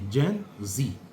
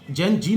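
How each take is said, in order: First: The last word begins with a z sound. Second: The last word begins with a j sound. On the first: The speaker calls it right. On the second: The speaker calls it wrong.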